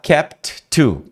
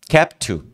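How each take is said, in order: First: The final T of kept is pronounced. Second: The final T of kept is dropped. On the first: The speaker calls it wrong. "Em vez de você falar kept to, ... É muito mais difícil" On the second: The speaker calls it right. "você tira o T do kept, então vira kept to"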